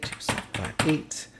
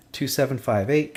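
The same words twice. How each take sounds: First: Whispering the number back to himself; whispered repeat. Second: Said in the usual way. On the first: Shown as a demonstration. Tutor checking a number under his breath, whispering. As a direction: murmur the digits as you check them.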